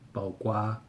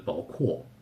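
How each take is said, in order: First: It uses the Taiwan pronunciation of the word. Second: It uses the mainland pronunciation of the word.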